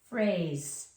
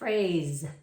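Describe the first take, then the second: First: It is sounded out, ending in an s sound. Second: It is said fast, ending in a z sound. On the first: "We just need to sound it out like regular" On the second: "If we say it fast, it's going to sound like phrase"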